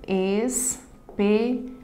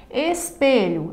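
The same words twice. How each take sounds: First: "Espelho" in three slow beats: es, pe, lho; syllable by syllable. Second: Said in the usual way. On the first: Shown as a demonstration. Teacher dividing a word for students, syllable by syllable. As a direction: pause after each syllable of "Espelho". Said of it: "Na divisão silábica". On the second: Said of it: "a mesma coisa".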